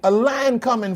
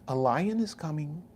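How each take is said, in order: First: It is said in a blunt, urgent tone. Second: It is said in a calm, polite tone. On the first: The danger demands immediate action. The speaker calls it right. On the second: The danger is mentioned gently and courteously. The speaker calls it wrong.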